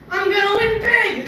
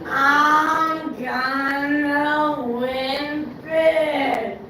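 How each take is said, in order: First: It is spoken at an ordinary pace. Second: It is spoken very slowly, heavily drawn out. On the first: "normal speed" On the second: "Reverse even slower motion"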